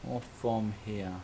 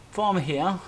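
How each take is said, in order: First: "Or from here" slow and lower; slow musing alternative; slow lower option. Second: FROM here, pitched up and louder; louder first option "From here"; higher, louder option. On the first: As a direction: drop to a slower, lower "from here". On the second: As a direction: lift "From here" high. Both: Shown as a demonstration.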